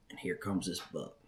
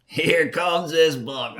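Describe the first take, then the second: First: Softer hunter's hush. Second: Slow, louder amazed repeat; excited. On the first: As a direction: keep it low like the buck might hear. Buck appears, hushed first take. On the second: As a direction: let it land like you can't believe your eyes. Buck appears, repeated with emphasis. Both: Retold or imitated.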